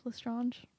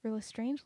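First: "Lestrange" with an AH in the last syllable; French-style pronunciation. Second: "Lestrange" ending like English "strange"; English pronunciation. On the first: Trying the other version of the villain's name, "Lestrange" as "le-strahnge". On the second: Unsure how to say the villain's name, "Lestrange" rhyming with "range". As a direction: say "Lestrange" with a long AY before the soft g. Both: Shown as a demonstration. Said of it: "Does it matter?".

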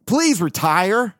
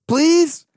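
First: Slow plea. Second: High, louder, laughing mock plea; begging squeak. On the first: Retold or imitated. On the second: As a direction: squeal the word "Please" like a desperate begging boss. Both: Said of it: "probably said".

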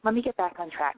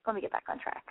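First: Said in the usual way. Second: Softer, hushed whisper; breathy hushed self-reminder. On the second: Real, not acted. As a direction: whisper it to yourself. Hushed aside to herself.

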